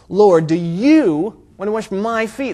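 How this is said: The stress falls on you and my.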